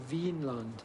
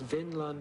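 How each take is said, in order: First: The first vowel is long. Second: The first vowel is short. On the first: The name means wine or grape land. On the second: The name means meadow land.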